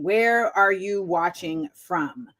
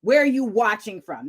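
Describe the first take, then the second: First: Where are you watching from said slowly with weight on "Where"; drawn-out "Where are you watching from" with the stress on "Where"; slow, deliberate question. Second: Said in the usual way. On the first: Shown as a demonstration. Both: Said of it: "That's actually the real question".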